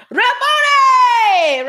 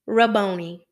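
First: Very high, loud, drawn-out cry; hammed-up joyful holler, stretch it right out. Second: Said in the usual way. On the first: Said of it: "cried out in Arabic".

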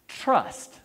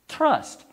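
First: Said in the usual way. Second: "Trust" said high and punched; stressed trust. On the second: Shown as a demonstration. Preacher repeats "Trust" to the congregation, high and emphatic. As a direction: hit "Trust" hard.

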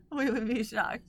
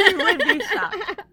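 First: Said in the usual way. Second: Mock shocked. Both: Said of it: "which we would be shocked".

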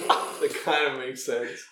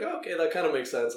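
First: Slow down and lean on "kinda"; drawn out, "kinda" stressed in disbelief; slow and pointed. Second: Said in the usual way. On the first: Retold or imitated. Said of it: "What do you mean?". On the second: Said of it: "and she's like".

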